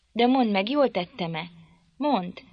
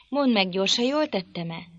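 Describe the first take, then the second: First: Irritated cry. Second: Said in the usual way. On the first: A narrator's reading. Catherine snaps at Nelly demanding an answer, irritated. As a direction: demand it, wringing her hands. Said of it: "kiáltott fel ingerülten".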